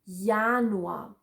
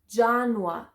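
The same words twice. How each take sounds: First: The word begins with a Y sound. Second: The word begins with an English J sound. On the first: The speaker calls it right. "but Januar" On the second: The speaker calls it wrong. "Not Januar"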